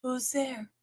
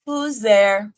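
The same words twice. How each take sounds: First: Breathy hushed question, teasing; playful whisper. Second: A bit louder, playful question; loud playful call. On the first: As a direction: whisper it like a spooky secret. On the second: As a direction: call it out like a joke. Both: Pretend. Playing knock-knock with herself.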